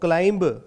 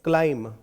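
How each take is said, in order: First: The word ends with a b sound. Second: The word ends with an m sound. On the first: The speaker calls it wrong. "क्लाइंब की बजाय" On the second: The speaker calls it right. "आप क्या पढ़ें? क्लाइम"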